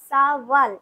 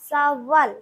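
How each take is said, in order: First: The middle consonant is a w sound. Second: The same.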